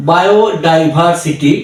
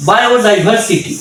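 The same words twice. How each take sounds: First: "বায়োডাইভার্সিটি" slowly, part by part; ভেঙে ভেঙে উচ্চারণ. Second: "বায়োডাইভার্সিটি" whole, raised in pitch; একবারে উচ্চারণ. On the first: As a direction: separate the parts of "বায়োডাইভার্সিটি". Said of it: "এইভাবে syllable ভেঙে ভেঙে". ("বায়োডাইভার্সিটি" ভেঙে ধীরে ধীরে) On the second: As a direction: say "বায়োডাইভার্সিটি" as one connected word. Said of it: "একবারে যখন বলবো আমরা". ("বায়োডাইভার্সিটি" একবারে টানা উচ্চারণ) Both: Shown as a demonstration.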